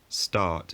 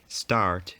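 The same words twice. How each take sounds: First: The r sound before the t is dropped. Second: The r sound before the t is pronounced. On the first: This was considered a vulgar pronunciation. "Start is vulgar" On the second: This was considered the proper pronunciation. "Start is proper"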